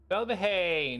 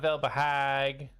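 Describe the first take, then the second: First: The name ends without a g sound. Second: The name ends with a hard g sound. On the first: The speaker calls it right. "It's a silent G" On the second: The speaker calls it wrong. "not Velbehag"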